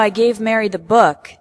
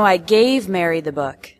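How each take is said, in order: First: The word "book" carries the strongest stress. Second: The word "gave" carries the strongest stress. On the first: It was the book, not another item. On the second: It was given, not lent.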